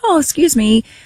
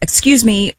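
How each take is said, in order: First: It is said in a sweeter, nicer way. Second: It is said in a plain, matter-of-fact way.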